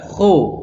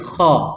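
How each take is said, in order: First: The lips are rounded, giving an o vowel. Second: The lips are unrounded, giving an a vowel. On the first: The speaker calls it wrong. "tidak boleh dibaca bulat, kho, tidak boleh" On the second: The speaker calls it right. "tapi kha"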